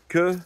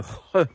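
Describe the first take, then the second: First: The consonant is a hard k sound. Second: The consonant is a raspy throat sound. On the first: The speaker calls it wrong. "ça se dit pas que" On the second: The speaker calls it right. "mais re"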